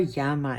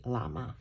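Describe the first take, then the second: First: "llama" said the Spanish way, with a y sound; Spanish pronunciation. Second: Said in the usual way. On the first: Shown as a demonstration. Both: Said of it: "if you say it in Spanish".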